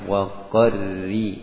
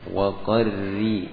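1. Bunyi r itu tipis. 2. Bunyi r itu tipis.

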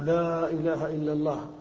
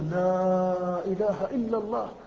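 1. تُمدّ حروف المد مدًّا متوسطًا فقط. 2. تُمدّ حروف المد مدًّا أطول بكثير. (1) "تمدها ما شئت لكي تخرج المعنى الذي في نفسك" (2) "أو تمد أكثر"

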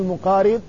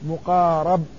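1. الحركة بعد الراء هي 'i'. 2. الحركة بعد الراء هي 'a'. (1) "تقول مقارب على أنه وصف اسم الفاعل" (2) "يكسر الحرف الثالث أو ما قبل الأخير يفتح، فتقول مقارب"

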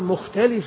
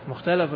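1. الحرف الذي قبل الأخير يحمل حركة 'i'. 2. الحرف الذي قبل الأخير يحمل حركة 'a'.

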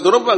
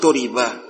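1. Vokal tengahnya terdengar seperti 'o'. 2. Vokal tengahnya terdengar seperti 'i'. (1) "Harus dibaca doroba" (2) "enggak boleh dibaca doriba"

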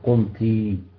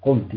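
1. تنتهي الكلمة بصوت مد طويل 'ee'. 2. تنتهي الكلمة بصوت قصير 'i'.

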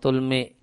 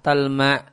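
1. Vokalnya u lalu i. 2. Vokalnya a lalu a. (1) "taknya di doma, lamnya di sukun, mimnya di kasroh" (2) "Boleh juga taknya di fathah dan mimnya di fathah"

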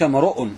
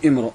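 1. الهمزة منطوقة بوضوح. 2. الهمزة مُسقطة. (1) "إنك امرؤ" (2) "مش امرؤ"

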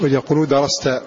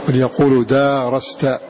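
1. الحركة بعد الدال قصيرة. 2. الحركة بعد الدال طويلة. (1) "وقرأ غيرهم بحذف هذه الألف" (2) "كان السين وفتح التاء مع الألف"

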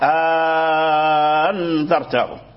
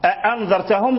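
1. الهمزة الثانية تصير حرف مد. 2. الهمزة الثانية همزة قطع كاملة. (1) "أبدل الهمزة الثانية ألفا" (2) "بدل من أن يقرأ"

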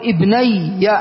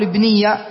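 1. الحركة التي قبل الياء المشددة هي 'a'. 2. الحركة التي قبل الياء المشددة ليست 'a'. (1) "ما قبل الياء يبقى على ما هو عليه مفتوحة ... فتقول ابني" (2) "لا تقول ابني"

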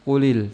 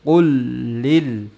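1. Bunyi l pendek dan tunggal. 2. Bunyi l digandakan dan ditahan lebih lama. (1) "jangan kulil" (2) "kul ditebalkan karena tasydid"

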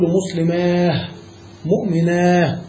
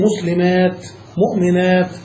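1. تنتهي الكلمات بصوت الهاء. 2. تنتهي الكلمات بصوت التاء. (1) "والوقف بالهاء قليل" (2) "فالأكثر الوقف بالتاء"

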